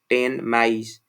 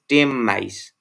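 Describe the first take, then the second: First: Ten ends with a clear n sound. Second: Ten ends with an m sound. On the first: "actual pronunciation is this one" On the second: "assimilated pronunciation"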